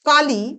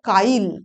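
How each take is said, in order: First: The word ends in an i vowel. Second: The i moves before l, ending in consonant.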